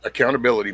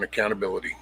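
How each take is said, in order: First: Said in the usual way. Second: Softer, dropped repeat of accountability, much quieter; quiet emphatic repeat. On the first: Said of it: "man, accountability". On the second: Real, not acted. Streamer repeats his point to chat, quietly and heavily. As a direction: let accountability sink in softly, quieter.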